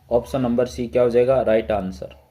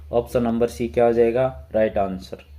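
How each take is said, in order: The two takes are said the same way.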